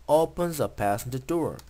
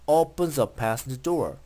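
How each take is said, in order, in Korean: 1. 단어들을 한 단어처럼 이어서 말해요. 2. 단어들을 한 단어처럼 이어서 말해요.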